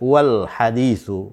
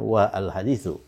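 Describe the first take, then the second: First: The initial a is dropped, joining the words. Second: The initial a is kept as a separate vowel. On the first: The speaker calls it right. "dia dibaca wal haditsu" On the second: The speaker calls it wrong.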